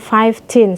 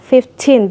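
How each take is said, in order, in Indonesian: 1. Bagian pertama diucapkan sebagai 'five'. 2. Bagian pertama diucapkan sebagai 'fif'. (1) "Jangan fifteen, salah" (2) "lima belas, fifteen"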